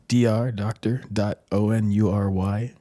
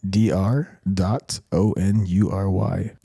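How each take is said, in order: First: It is said in a casual, ordinary voice. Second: It is said in a deep, serious voice.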